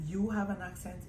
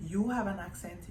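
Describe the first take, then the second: No difference in how they are said.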